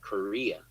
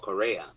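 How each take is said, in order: First: The name sounds like the country Korea. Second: The name does not sound like the country. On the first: This is how most people say the name. The speaker calls it wrong. "everybody pronounces it Korea" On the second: This is the name's true pronunciation. The speaker calls it right. "his name is actually Paul Correa"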